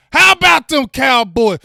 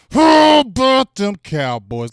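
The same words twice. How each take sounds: First: Shouted high and loud to the chat; rally the fans with a big shout; hype shout. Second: Louder, slower second shout with a rise at the end; drawn-out team cheer. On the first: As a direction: team cheer yelled out. Hype chant to viewers. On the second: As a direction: stretch the cheer out like a chant. Hype chant repeated. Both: Real, not acted.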